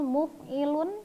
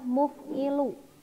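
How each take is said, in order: First: The word ends with an n sound. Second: The word ends with a vowel. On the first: The speaker calls it right. "isim fa'il muf'ilun" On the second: The speaker calls it wrong. "jangan sampai ... dibacanya muf'ilu"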